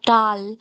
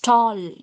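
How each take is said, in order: First: The vowel is an open 'ah' sound. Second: The vowel is a rounded 'aw' sound. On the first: The speaker calls it wrong. "No, it's not tall" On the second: The speaker calls it right. "It's tall, tall. O, O sound"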